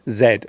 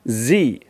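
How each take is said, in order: First: The letter name is said the British way. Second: The letter name is said the American way. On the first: "In British English, we usually call this the letter Z" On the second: "In American English, this letter is pronounced Z"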